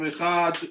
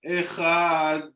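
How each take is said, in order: First: The word ends quickly without lengthening. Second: The final sound is held long like a song. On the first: The speaker calls it wrong. "we don't say like this" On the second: The speaker calls it right. "You keep the dalet of Echad, you make a long song"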